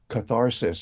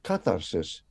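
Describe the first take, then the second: First: It is pronounced in an English-style way. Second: It is pronounced in a Greek-style way.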